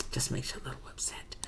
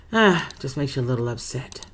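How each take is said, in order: First: Breathy whispered repeat of just makes you a little upset, far softer; whispering the line a second time, barely audible. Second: Said in the usual way. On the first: Real, not acted. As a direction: hush it down to a whisper as if to herself.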